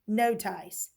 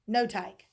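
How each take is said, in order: First: The c is pronounced like an s. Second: The c is pronounced like a k. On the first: "Let's try it with soft C" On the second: "We'll try hard C"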